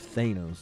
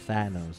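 First: The first vowel is a long A. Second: The first vowel is a short A. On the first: The speaker calls it right. "instead of" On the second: The speaker calls it wrong. "They say it like the short A"

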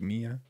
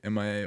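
First: It sounds like the name Mia. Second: It sounds like the ending of Miami. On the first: "or if it's like Mia" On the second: "pronounce it like Miami"

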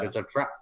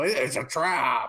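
First: It is said plainly, without force. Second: It is said with vigor and force.

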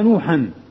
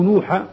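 First: The name ends with an added n sound. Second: The name ends without an added n sound. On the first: "يجوز فيه الوجهان الصرف" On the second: "وعدم الصرف"

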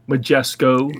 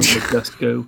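First: The consonant before the last vowel is a k. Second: The consonant before the last vowel is a t. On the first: The speaker calls it right. "Majesco, not Majesco" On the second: The speaker calls it wrong. "not Majesco"

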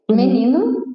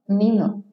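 First: Brazilian accent, the first vowel clearly pronounced. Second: European accent, the first vowel dropped. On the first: "menino in Portuguese from Brazil" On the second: "in Portugal, they will say menino, menino. So they'll just exclude the E"

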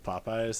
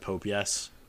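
First: The name is said smoothly as one word. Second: The name is split into two words, Pope Yes.

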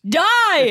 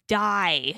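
First: The word is said loudly and with passion. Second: The word is said plainly, without extra force. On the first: The speaker calls it right. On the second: The speaker calls it wrong.

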